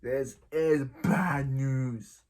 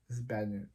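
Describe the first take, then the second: First: Slow ominous repeat. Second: Quiet muttered repeat. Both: Pretend.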